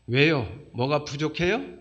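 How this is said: It is said in a cheeky, cocky tone.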